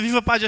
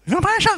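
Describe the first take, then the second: First: Said in the usual way. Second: High, loud nasal cheer; hammed-up honking shout; nasal speech impediment. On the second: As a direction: yell the slogan through the nose. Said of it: "um gajo que é fanhoso".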